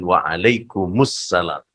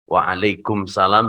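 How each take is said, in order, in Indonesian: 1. Bunyi vokal 'u' terdengar sebelum 'salam'. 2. Langsung menyambung ke 'salam' tanpa 'u'.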